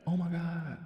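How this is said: It sounds like a casual, surprised exclamation. It is an offhand expression of surprise. The speaker calls it wrong. "that's almost more in the vein of blasphemy"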